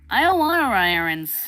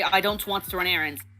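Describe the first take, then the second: First: The words blur together into one word. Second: Each word is said separately and clearly. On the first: "it'll just mold into this one word" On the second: "that's how someone will normally say it"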